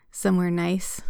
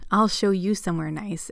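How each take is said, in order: First: Mildly snide, mocking question. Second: Understated growl of a threat. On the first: Alec taunts Elliot before being cut off, mildly snide. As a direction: needle him with a touch of snideness. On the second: Elliot cuts Alec off, mildly growling. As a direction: cut in with a mild growl. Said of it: "Elliot growled". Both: A narrator's reading.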